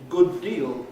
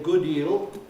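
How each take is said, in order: First: Every sound where the words meet is pronounced. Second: The sound where the words meet is dropped. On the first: "if you slow down and say it correctly" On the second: "they do represent exactly how we say them"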